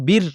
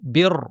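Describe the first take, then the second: First: The r is pronounced light and thin. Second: The r is pronounced heavy and full. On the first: The speaker calls it wrong. "যেমনটি র সাকিনের পূর্বে স্বাভাবিকভাবে জের থাকলে পাতলা হয়" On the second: The speaker calls it right. "শুরুতেই ভারী করে বলবো"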